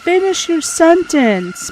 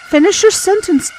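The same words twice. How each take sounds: First: Slow, drawn-out pleading yell; slow frustrated shout. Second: Higher, loud pleading yell; frustrated shout. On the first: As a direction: drag it out in frustration. Yelling at dying character again. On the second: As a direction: yell it at the screen. Yelling at dying character. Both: Real, not acted.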